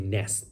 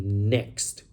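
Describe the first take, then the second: First: The word ends in an s sound, no t. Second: The word ends in a ks sound plus t. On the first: The speaker calls it wrong. "They don't say next, they say nest" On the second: The speaker calls it right. "the correct pronunciation includes the T sound and X"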